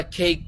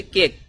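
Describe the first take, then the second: First: কেক as "kheik", with a puffed k; British-American pronunciation. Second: Said in the usual way. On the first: Shown as a demonstration. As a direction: say কেক like English "cake", vowel gliding. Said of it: "যখন কোনো British American কথা বলে". (কেক-কে "খেইক" উচ্চারণ) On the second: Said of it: "আমরা শিখেছি কেক".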